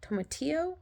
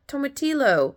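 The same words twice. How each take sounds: First: "Tomatillo" high and soft, rising into a question; unsure check. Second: High imitated vendor saying "tomatillo"; name the ingredient in the seller's high voice; taco seller's answer. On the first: Real, not acted. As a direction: say "Tomatillo" softly, querying the word. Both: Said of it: "I think is what she said".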